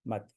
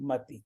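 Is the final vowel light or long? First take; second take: light; long. First: The final vowel is barely sounded. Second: The final vowel is long and clear. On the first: The speaker calls it right. "जैसे कि मात्रा है ही नहीं ऐसा समझ लीजिए" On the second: The speaker calls it wrong. "मती कोई शब्द नहीं है"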